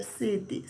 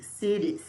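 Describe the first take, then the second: First: "city" with a crisp, clear t, "si-ti"; "city" with a plain t sound. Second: "city" said as "siri", the t a quick tap like Portuguese r; flapped t. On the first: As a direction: say "city" with a clean hard t. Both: Shown as a demonstration. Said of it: "A pronúncia varia".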